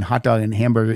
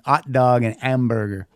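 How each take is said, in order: First: The H sounds are clearly pronounced. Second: The H sounds are dropped or weakened. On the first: "pronounce the H like in hot dog and hamburger" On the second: "He says more like"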